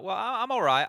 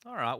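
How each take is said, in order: First: High, loud playful repeat; exaggerated all right. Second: Said in the usual way. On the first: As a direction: ham up the greeting. Caster repeats greeting, exaggerated.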